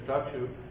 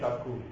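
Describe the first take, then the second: First: The middle consonant is a k-sh cluster. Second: The middle consonant is a doubled k. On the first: The speaker is from a Hindi-speaking area. "which a Hindi speaker would speak as chakshu" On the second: The speaker is identified as Bengali. "they'll say chakku"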